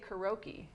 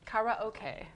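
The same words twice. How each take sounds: First: The latter part sounds like the word oak. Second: The latter part sounds like the word okay. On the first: The speaker calls it wrong. "Around here, people say karaoke. ... that also is incorrect" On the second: The speaker calls it right. "sounds like okay, so it's not oak ... That's how you're supposed to say"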